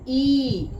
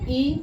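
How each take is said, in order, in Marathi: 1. हा स्वर ताणून जास्त वेळ उच्चारला जातो. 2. हा स्वर फक्त थोडा वेळ उच्चारला जातो. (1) "ह्याचा उच्चार दीर्घ होतो" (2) "त्याचा उच्चार करताना कमी वेळ लागतो"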